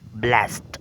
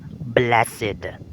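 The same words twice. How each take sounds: First: The word is said as one syllable. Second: The word is said as two syllables. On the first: The word is used as a verb. "if you're going to identify it as a verb" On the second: The word is used as an adjective. "if you're going to identify it as an adjective"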